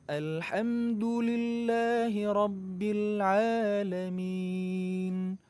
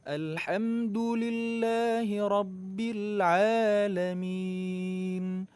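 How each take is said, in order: No difference in how they are said.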